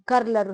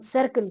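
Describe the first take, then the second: First: The word begins with a k sound. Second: The word begins with an s sound. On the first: The speaker calls it wrong. "कर्लर हम नहीं कहते" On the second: The speaker calls it right. "हम सर्कल कहते हैं"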